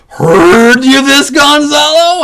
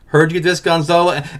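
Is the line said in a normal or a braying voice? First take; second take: braying; normal. First: It is said in a braying, donkey-like voice. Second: It is said in a normal acting voice.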